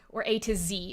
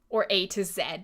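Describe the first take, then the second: First: The letter Z is said the American way, zee. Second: The letter Z is said the Canadian way, zed.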